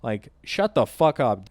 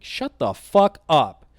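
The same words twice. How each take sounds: First: Said in the usual way. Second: Slow, louder snapped insult; slow, heavy angry put-down; angry retort. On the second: Retold or imitated. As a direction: bite each word out. Telling off the threatening guy.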